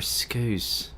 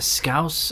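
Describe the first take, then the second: First: "Scouse" with an oo vowel, as in goose; "Scouse" said as "skooss"; mispronunciation of Scouse. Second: "Scouse" with an ow vowel, as in house; "Scouse" said as "skowss"; pronunciation of Scouse. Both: Shown as a demonstration. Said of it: "Is it a Scouse or a Scouse?".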